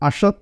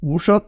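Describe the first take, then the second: First: The name begins with an 'a' vowel. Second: The name begins with an 'oo' vowel. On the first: The speaker calls it right. "അഷർ എന്നാണ് പറയുന്നത്" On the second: The speaker calls it wrong. "ഉഷർ എന്നാണ് ഉച്ചരിക്കുന്നത് എന്ന് കരുതിയാണ് അദ്ദേഹം അങ്ങനെ പറഞ്ഞത്"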